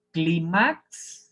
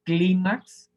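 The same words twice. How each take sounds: First: Clímax wrongly stressed as cli-MAX; Clímax with a rising, stretched final syllable; stress on last syllable. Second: Clímax as CLÍ-max, louder on CLÍ; clímax said firmly with stress on the CLÍ; stress on first syllable. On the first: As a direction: push the end of Clímax up, cli-MAAX. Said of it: "si fuera aguda". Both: Shown as a demonstration.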